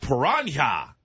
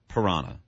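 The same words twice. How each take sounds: First: The word is pronounced the Spanish way. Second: The word is pronounced the usual English way. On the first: The speaker is trying to sound cultured. The speaker calls it wrong. "what he said was the Spanish pronunciation" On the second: This is how everyone normally says it. The speaker calls it right. "that's how everyone said it"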